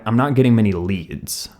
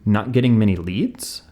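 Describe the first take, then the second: First: The voice falls at the end like a statement. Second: The voice rises at the end like a question.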